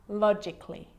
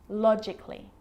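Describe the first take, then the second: Both takes have the same delivery.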